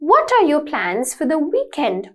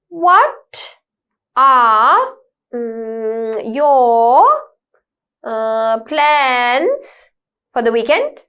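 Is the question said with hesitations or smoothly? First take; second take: smoothly; hesitations. First: It flows smoothly without pauses or fillers. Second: It is broken by pauses and filler sounds. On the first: The speaker calls it right. "naturally you'll be able to speak up" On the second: The speaker calls it wrong. "We don't talk like that"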